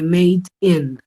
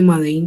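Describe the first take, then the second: First: Made is said as one English syllable. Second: Made is read like Spanish, with two syllables. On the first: The speaker calls it right. "se dice Made in" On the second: The speaker calls it wrong. "No se dice Made in China"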